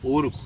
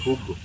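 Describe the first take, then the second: First: The word starts directly with the vowel. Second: The word starts with a breathy h sound. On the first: This is the standard Castilian form. "el campesino no dice urgo" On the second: This keeps a pre-sound from the native language. "dice juzgo"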